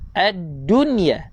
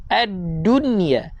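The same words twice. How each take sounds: First: The doubled consonant is held long. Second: The doubled consonant is held long.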